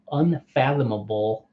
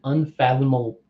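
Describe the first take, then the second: First: Unfathomable said slowly, every syllable un-fath-om-a-ble spelled out; slow down and get unfathomable right; careful retry. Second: Unfathomable cut off mid-word, tripped over; stumbled word. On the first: Reading card text aloud, carefully redoing unfathomable. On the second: Reading card text aloud, stumbling over unfathomable. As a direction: trip on unfathomable and stop short. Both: Real, not acted. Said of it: "that's hard to say".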